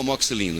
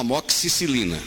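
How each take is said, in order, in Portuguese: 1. As sílabas da palavra são alteradas ou trocadas. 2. A palavra é dita na forma padrão. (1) "Você nunca tomou amoxicilina" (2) "você tomou amoxicilina"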